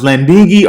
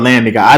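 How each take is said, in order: First: The name ends with a short 'ee' sound. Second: The name ends with the word 'guy'. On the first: "some people say landingy" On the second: "Landing guy sounds better to me"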